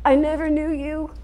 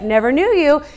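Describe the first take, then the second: First: It is said sorrowfully, with tearful feeling. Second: It is said coldly, with casual dismissal.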